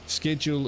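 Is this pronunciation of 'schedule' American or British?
American. It is said with an American pronunciation. "more of an American way of saying it"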